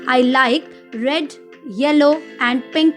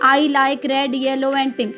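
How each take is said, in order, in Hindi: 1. 'red' के बाद थोड़ा सा रुकना है। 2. इसे बिना रुके सीधा पढ़ा जाता है। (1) "थोड़ी-सी देर के लिए वहाँ पर रुकना होता है" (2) "इस तरह से नहीं पढ़ेंगे"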